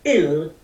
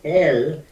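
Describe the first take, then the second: First: The vowel is a short, closed 'ih' sound. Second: The vowel is an open, gentle 'eh' sound. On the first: It is a personal affirmation that God alone exists. "the resonance is in the throat chakra" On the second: It is a humble way of attuning to the heart. "it comes from the heart, it does not come from the throat"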